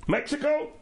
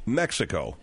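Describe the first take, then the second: First: Mock questioning. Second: Said in the usual way. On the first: Mock guess at rival.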